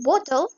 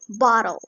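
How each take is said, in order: First: The middle T is a crisp T sound. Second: The middle T is a soft D sound. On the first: "Instead of saying" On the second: "pronounce the T as D"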